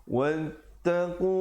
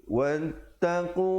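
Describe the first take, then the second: Both takes have the same delivery.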